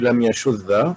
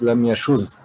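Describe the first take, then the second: First: The final 'd' is doubled and followed by a vowel. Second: The final 'd' is single with no vowel after. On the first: "it has to be lam yashudda" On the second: "So he makes it lightened. Lightened meaning ungeminated, without shadda"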